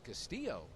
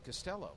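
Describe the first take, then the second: First: The name is said like 'Castillo'. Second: The name is said like 'Costello'. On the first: This is how people in New Mexico say the name. "that ain't Costello. That's Castillo" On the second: This is how people in New York say the name. "C A S T I L L O was Costello"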